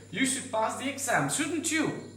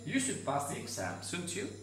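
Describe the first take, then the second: First: The voice rises high at the end. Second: The voice falls and slows at the end. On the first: The speaker is genuinely asking a question. "if you want to make it as a question" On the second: The speaker expects the listener to agree. "when you want to agree"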